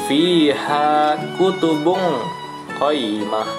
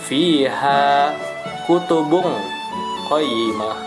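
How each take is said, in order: The two takes are said the same way.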